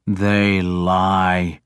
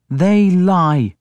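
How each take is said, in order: First: Low-key, contained anger on a falling tune; angry. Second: Higher-pitched, firm flat denial. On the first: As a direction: deny it with restrained anger. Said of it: "I said angrily". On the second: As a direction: deny it outright in a raised pitch. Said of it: "Breda said flatly". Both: A narrator's reading.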